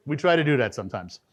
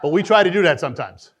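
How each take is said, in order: First: Said in the usual way. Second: Laughing aside. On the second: Real, not acted.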